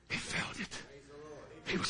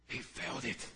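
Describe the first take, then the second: First: He felt it. breathed as a whisper. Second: Much lower and softer, hushed; He felt it. said low and soft; quiet. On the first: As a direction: whisper it to the room. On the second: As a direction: drop the voice right down on He felt it. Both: Shown as a demonstration. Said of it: "He'd never heard his voice".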